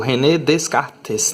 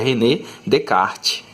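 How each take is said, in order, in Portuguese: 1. Os sons do s em Descartes são pronunciados. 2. Os sons do s em Descartes são silenciosos. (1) "você não pode pronunciar desse jeito" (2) "a pronúncia correta é René Descartes, ok? Porque no francês a gente não pronuncia os S's"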